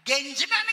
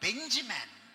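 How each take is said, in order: First: The name begins with a G sound. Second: The name begins with a B sound. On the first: The speaker calls it wrong. "గెంజిమ్యాన్ కాదురా" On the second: The speaker calls it right.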